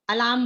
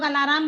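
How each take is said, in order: First: The word is said with two syllables. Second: The word is said with three syllables. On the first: The speaker calls it right. "अलार्म बोलना चाहिए" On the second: The speaker calls it wrong. "पर सब लोग अलाराम बोलते हैं"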